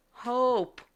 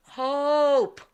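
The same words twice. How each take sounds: First: Mock yell. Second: Higher, firmer drawn-out mock shout; mock yell, escalated. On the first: Lady in the back answering the psychic, mock distant yell. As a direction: imitate a yell from far back. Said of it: "And she yells". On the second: Lady repeating her name to a deaf psychic, stronger mock yell. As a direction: imitate calling out harder to be heard. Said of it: "yelling it as loud as she possibly can".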